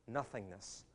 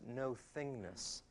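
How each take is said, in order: First: It is said as one smooth word. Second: It is split with a break after 'no'. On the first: It means emptiness or a blank. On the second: It means being no one particular thing.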